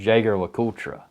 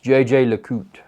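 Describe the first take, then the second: First: The name is read out literally as spelled. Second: The name is not read out as spelled. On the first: The speaker calls it wrong. "it looks like when you read it, it's like" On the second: The speaker calls it right. "But it's"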